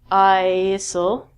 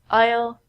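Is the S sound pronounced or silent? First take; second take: pronounced; silent. First: The S sound is pronounced in the word. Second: The S sound is silent in the word. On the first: The speaker calls it wrong. "We don't say isle" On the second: The speaker calls it right. "The S in these words are silent. We say aisle"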